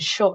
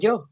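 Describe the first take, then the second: First: It is said with a Rioplatense accent. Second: It is said without a Rioplatense accent. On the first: This is how people from Argentina say it. "dicen yo" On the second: This is not how people from Argentina say it. "no dicen yo"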